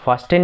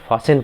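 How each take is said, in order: First: The middle t sound is pronounced. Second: The middle t sound is silent. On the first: The speaker calls it wrong. "हम इसे फास्टेन नहीं पढ़ते" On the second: The speaker calls it right. "हम इसे फासेन पढ़ते हैं"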